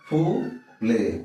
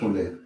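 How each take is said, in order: First: The two syllables are said separately with a gap. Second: The two syllables are joined without a gap. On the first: "আলাদা আলাদা করে আমরা উচ্চারণ করতে পারি" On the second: "একসঙ্গে বললে কি হবে?"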